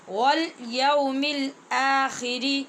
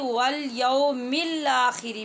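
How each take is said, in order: First: The L is held, then a glottal catch precedes akhiri. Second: The L runs smoothly into akhiri without a catch. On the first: The speaker calls it right. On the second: The speaker calls it wrong.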